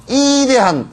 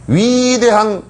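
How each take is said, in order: First: High, stretched Gyeongsang-accented "이대한", 위 turned to 이; hammed-up Gyeongsang pronunciation; Gyeongsang dialect. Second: "위대한" with a high, long-stretched first syllable; mock boast, stretching "위대한"; mock grandiose. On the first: Shown as a demonstration. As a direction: say "이대한" in broad Gyeongsang dialect, first vowel held high. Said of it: "경상도 말로 하면". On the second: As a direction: draw out the 위 of "위대한" high and pompously. Mocking self-styled great benefactor.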